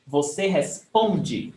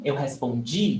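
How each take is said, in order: First: Responde slowly, with PON drawn out; stress on PON. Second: Respondi with DI, said "jee", strong; stress on final DI. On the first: Teacher explaining the stressed syllable, slow stress on PON. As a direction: lean hard on the middle of responde. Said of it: "the stress is on pom". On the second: Teacher showing the other one, stress on final DI. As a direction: land firmly on the end of respondi. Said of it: "the stress is on G". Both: Shown as a demonstration.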